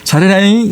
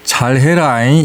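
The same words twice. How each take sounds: First: It is said in a warm, encouraging tone. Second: It is said in a stern, warning tone. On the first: It is a cheer of support. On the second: It is a warning to do better.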